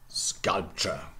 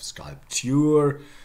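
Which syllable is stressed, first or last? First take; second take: first; last. First: The stress is on the first syllable. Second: The stress is on the last syllable. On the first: This is the later form after the accent shift. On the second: This is the older form before the accent shift.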